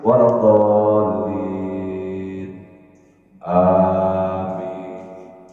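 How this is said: Amin follows after a clear pause.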